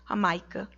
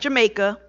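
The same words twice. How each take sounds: First: The word begins with an H sound. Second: The word begins with a J sound. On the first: "they don't pronounce the J" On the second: "spelled like Jamaica"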